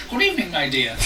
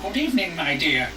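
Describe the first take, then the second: First: A touch of old lady, gently put on; old woman voice. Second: A hint of a sweet old granny; old woman voice. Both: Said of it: "Sorry for the old woman voice".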